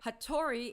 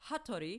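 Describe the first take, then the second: First: It is said with an English-style pronunciation. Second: It is said with a Japanese-style pronunciation. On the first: "little to no inflection" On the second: "native pronunciation"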